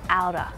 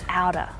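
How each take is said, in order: No difference in how they are said.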